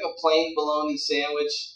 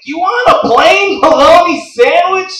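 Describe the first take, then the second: First: Said in the usual way. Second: Super-loud deli guy, high and drawn out; mock yelling. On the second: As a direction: bellow it slowly as an incredulous deli guy. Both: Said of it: "Dude, why are you yelling?".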